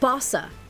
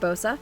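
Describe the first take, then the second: First: The word is said like 'bossa nova'. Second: The word is not said like 'bossa nova'. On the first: The speaker calls it right. "Like bossa nova" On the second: The speaker calls it wrong. "I called it Bosa"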